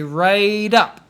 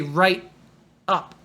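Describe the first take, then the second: First: The two words are joined smoothly without a break. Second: The two words are said separately with a break. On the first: The speaker calls it right. "You want to stick it together and say right up" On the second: The speaker calls it wrong. "Don't say right, up"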